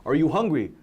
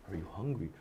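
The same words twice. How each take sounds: First: Said in the usual way. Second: "Are you hungry?" barely breathed, far softer and lower; almost silent. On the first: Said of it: "they say the same thing". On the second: Shown as a demonstration. Teacher shows one phrase said a different way, very hushed. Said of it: "a thousand ways to say it".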